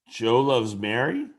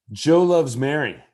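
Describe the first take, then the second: First: "Joe loves Mary" as a question, rising sharply on "Mary"; curious rise at the end of "Mary". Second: Said in the usual way. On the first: Shown as a demonstration. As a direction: lift the end of "Mary" into a vocal question mark. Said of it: "Also a rising inflection, but in curiosity". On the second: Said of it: "say those same three words in a way".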